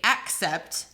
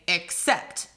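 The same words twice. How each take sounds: First: The stress is on the first syllable. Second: The stress is on the second syllable. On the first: The speaker calls it wrong. "You don't say accept" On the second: The speaker calls it right. "we say accept. So unstressed, stressed"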